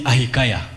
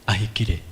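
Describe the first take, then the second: First: The name is said like a phone's voice. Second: The name is said with an English accent. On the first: "those of you who have iPhones, it calls me" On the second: "the normal English version is"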